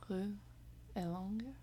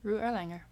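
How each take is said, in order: First: The name is said with a pretty accent. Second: The name is said in a plain accent.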